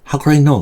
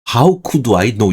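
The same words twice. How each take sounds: First: The phrase is said quickly and forcefully. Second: The phrase is said slowly and deliberately. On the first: The speaker feels frustrated and wronged. The speaker calls it right. "이거 빨리 해야 됩니다 이 발음" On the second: The speaker is picking a fight with the listener. The speaker calls it wrong. "이거 천천히 하면 시비 거는 거예요"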